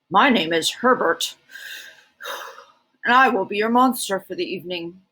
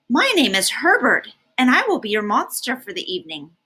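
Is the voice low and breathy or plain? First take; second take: low breathy; plain. First: The voice is low and breathy, like a monster. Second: The voice is closer to a plain speaking voice. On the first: The speaker calls it right. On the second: The speaker calls it wrong.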